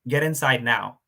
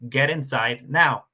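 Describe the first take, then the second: First: It is said calmly, without force. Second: It is said forcefully, in a commanding military voice.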